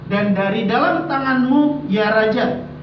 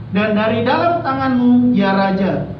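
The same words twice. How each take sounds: No difference in how they are said.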